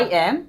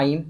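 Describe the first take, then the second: First: Two separate words are said in full. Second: The two words merge into one syllable.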